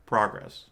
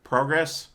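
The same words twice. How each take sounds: First: "progress" said with a short ah, PRAH-gress, falling; "prah-gress" pronunciation. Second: "Progress" said with a long o, PROH-gress, rising at the end; "proh-gress" pronunciation. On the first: Comparing versions for his friend, "progress" as PRAH-gress. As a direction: say "progress" as PRAH-gress, the Canadian-American contrast. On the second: Testing how he says it to his friend, "Progress" as PROH-gress. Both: Shown as a demonstration. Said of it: "Let me see".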